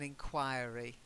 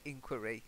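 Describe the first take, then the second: First: It is pronounced the usual British way. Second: It is pronounced the usual American way. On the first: "In in the U K, we tend to say" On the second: "but in America, I have heard people say"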